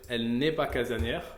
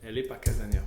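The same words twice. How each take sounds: First: The negation particle 'ne' is clearly pronounced. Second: The negation particle 'ne' is left out. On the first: "au lieu de dire" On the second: "la négation ici, elle va sauter"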